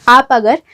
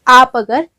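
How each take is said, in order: The two takes are said the same way.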